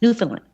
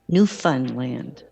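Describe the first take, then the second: First: The word is said quickly and run together. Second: The word is said slowly and carefully.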